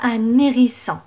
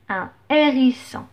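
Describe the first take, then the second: First: The n sound links into the next word. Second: The two words stay separate without linking. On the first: The speaker calls it wrong. "je ne dis pas un hérisson. Non" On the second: The speaker calls it right. "le H dans ce cas c'est un H aspiré"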